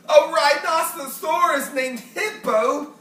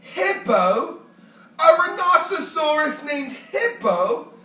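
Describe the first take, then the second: First: Slow, delighted exclamation; Fluffy howling with laughter at the name; crying out with laughter. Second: Rising, incredulous question; can't quite believe the name; Fluffy the porcupine, amused and doubtful; amused disbelief. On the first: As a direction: savour the joke through laughter. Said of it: "Fluffy cried". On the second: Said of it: "Fluffy smiled". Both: A narrator's reading.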